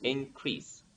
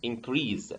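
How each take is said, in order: First: Soft "increase" ending in a voiceless S; increase with S sound. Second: "increase" said as "in-creeze"; increase with Z sound. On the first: Shown as a demonstration. Teacher shows noun and verb alike, "increase" ending in S. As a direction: end "increase" on S, not Z. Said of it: "with sa". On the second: Retold or imitated. Teacher quotes what some people say for the verb, "increase" ending in Z. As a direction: end "increase" on a voiced Z. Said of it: "and the verb is increase".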